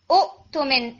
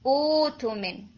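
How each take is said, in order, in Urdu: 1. t سے پہلے ہمزہ بولا جاتا ہے۔ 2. ہمزہ کی جگہ مد بولی جاتی ہے۔ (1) "دو حمزہ سے اکٹھے نہیں پڑھے جائیں گے, ... اٹس رانگ" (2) "ٹھیک ہے"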